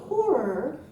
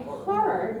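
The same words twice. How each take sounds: First: "horror" said as HOR-er, with an O; rounded-vowel HORROR. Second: "horror" said as HAR-er; open-vowel HORROR. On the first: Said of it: "now I can say horror". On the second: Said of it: "after years of saying horror". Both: Shown as a demonstration.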